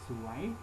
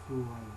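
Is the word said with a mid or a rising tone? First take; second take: rising; mid. First: The word is said with a rising tone. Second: The word is said with a level mid tone. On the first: It means beautiful. "rising tone" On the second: It means bad luck.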